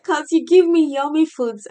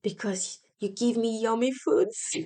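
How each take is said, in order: First: Put-on higher and much louder child voice; excited child repeat. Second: A hint of a small child's voice, plain level; relaxed mild child quote; child's answer. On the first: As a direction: burst it out as an eager kid. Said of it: "She said". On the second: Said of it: "And she says".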